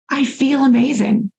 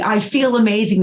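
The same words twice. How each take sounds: First: It is said calmly, with little intensity. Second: It is said with more intensity and energy.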